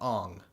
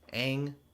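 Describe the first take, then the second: First: The vowel sounds like the one in 'song'. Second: The vowel sounds like the one in 'hang'. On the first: The speaker calls it wrong. "It's fucking stupid" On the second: The speaker calls it right. "changing the pronunciation of his fucking name. Aang to Ong"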